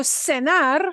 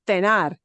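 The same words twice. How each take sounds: First: The first consonant sounds like s. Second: The first consonant sounds like th. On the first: This is the Latin American pronunciation. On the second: This is the pronunciation used in Spain.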